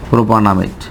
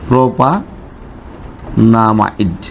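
First: Said in the usual way. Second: "প্রোপানামাইড" very slow, split after প্রোপা with a long pause; slow writing-out pace. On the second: Shown as a demonstration. Teacher writing the name for the class, very slow, broken "প্রোপানামাইড". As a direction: stretch "প্রোপানামাইড" out as if dictating it. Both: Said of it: "আমরা সেটাও লিখি".

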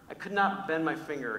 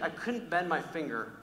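First: "not" stressed as a separate full word. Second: Said in the usual way. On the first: Real, not acted. Preacher insists how big the wart was, stress on "not". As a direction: lean on "not" in "could not". Repeats it with full, emphatic negative.

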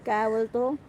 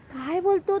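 First: Said in the usual way. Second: Pitched up high in wonder; amazed repeat. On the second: Shown as a demonstration. Repeating her son's words to viewers, amazed and high. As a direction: repeat it, astonished.

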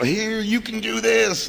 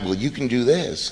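First: High, slow, drawn-out cheerleading; mock pep talk, pitched way up; showy encouragement. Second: Said in the usual way. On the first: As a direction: hand it over with gushing, put-on encouragement. Hands newcomers a chip, showing off.

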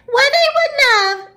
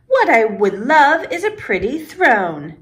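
First: Very high mocking squeal; high-pitched imitation. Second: Said in the usual way. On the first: A narrator's reading. Peter giggling as he imitates his friend, high-pitched. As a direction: mimic a girl in a squeaky high voice. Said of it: "imitating me in a high-pitched voice".

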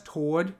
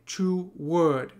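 First: "toward." said as one syllable, American style. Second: "two word" as two slow separate syllables, to-ward; two-syllable toward. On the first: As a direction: squeeze "toward." into a single beat. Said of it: "this is being pronounced how it is in the U S". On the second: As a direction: split "two word" into two beats. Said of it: "they pronounce this as a two syllable word". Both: Shown as a demonstration.

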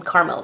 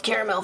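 First: Caramel said as two syllables, KAR-mel; pronounced carmel. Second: Caramel said in three syllables, KARE-uh-mel; pronounced caramel. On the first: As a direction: say caramel as carmel, no middle vowel. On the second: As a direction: say caramel with the full middle vowel. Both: Shown as a demonstration. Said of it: "I think it's called caramel for me".

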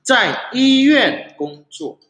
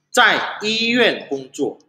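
First: Zai Yuan Gongzuo high and slow, each tone marked; higher model reading of Zai Yuan Gongzuo; slow careful Mandarin. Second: Zai Yuan Gongzuo slow, tones marked; second slow take of Zai Yuan Gongzuo; slow Mandarin repeat. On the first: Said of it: "teacher models phrase". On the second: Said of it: "repeats phrase". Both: Shown as a demonstration.

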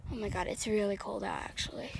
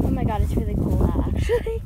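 First: Muttered under the breath; muttering. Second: Loud exclaiming. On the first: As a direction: mutter it to yourself. Cold outside, muttered then shouted. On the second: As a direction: blurt it out loud. Repeats loudly in the cold. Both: Real, not acted.

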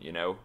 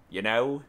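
First: Said in the usual way. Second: Put-on Cockney with a lifted ending; louder mock Cockney; Cockney accent. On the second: Shown as a demonstration. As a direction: do a jokey London Cockney. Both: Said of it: "I'm better at Cockney accent".

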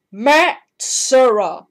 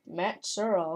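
First: Booming, drawn-out self-introduction; proud slow shout of the name; loud slow name. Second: Said in the usual way. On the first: Pretend. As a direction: announce the name big and slow. Character says his own name.

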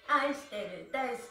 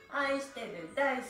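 The two takes are said the same way.

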